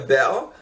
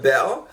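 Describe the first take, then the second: First: South London accent, dropping the t and r. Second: South London accent, dropping the t and r.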